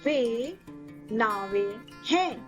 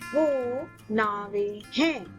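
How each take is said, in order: First: The first word has the formal pronunciation. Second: The first word has the everyday spoken pronunciation. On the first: This is the formal or written form. "In formal or written Hindi" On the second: This is the everyday spoken form. "In spoken Hindi"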